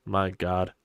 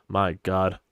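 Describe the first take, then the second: No difference in how they are said.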